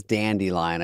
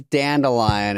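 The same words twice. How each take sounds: First: Dandelion said with a "dee" in the middle; dandelion, middle syllable a clear "dee"; variant pronunciation. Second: Said in the usual way. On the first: Shown as a demonstration. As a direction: say dandelion as "dandy-lion". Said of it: "Dana says dandelion". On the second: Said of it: "Who says dandelion and who says dandelion?".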